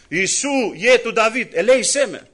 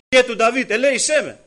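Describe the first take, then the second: First: Higher, louder cry of a blind beggar; calling out. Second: Higher and louder repeated cry; calling again. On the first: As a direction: call out over the crowd for mercy. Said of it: "φωνάζει στο πλήθος". (ο τυφλός φωνάζει στο πλήθος, δυνατά) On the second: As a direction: cry out once more, more desperate. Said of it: "Μετά ξανά". (ο τυφλός ξαναφωνάζει, πιο δυνατά και ψηλά) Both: Retold or imitated.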